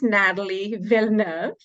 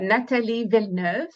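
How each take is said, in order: First: The name is pronounced the English way. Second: The name is pronounced the French way.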